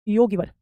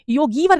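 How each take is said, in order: First: योगीवर with a short "gi"; योगीवर, middle i kept short; correct short vowel. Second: योगीवर with a stretched "gee"; योगीवर with the middle i held long; wrong long vowel. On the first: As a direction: say योगीवर as "yo-gi-var". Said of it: "योगीवर कहलाता है". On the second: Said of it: "योगीवर नहीं". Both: Shown as a demonstration.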